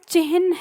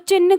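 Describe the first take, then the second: First: The h sound comes before the n sound. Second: The n sound comes before the h sound. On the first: The speaker calls it right. "इसका उच्चारण क्या है, चिह्न है" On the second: The speaker calls it wrong. "ये ना छोटा सा दिख रहा है तो मतलब यही आधा होगा"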